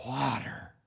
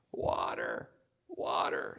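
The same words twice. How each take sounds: First: Soft, low, dry murmur of a thirsty man; parched murmur. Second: Hoarse dying whisper; parched whisper. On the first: Thirsty wanderers in the desert murmuring, soft and low. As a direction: say it like the throat is dry. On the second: Desert travellers begging for water in a whisper. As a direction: whisper it with no voice left. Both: Acted.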